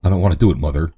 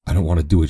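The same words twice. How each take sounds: First: A rising, tearful cry to Mother; sobbing plea. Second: Hint of a sob in the voice; understated tearful plea; mild sob. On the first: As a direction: beg her dead mother through tears. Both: A narrator's reading. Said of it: "she sobbed".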